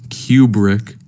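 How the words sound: The name is said in a British way.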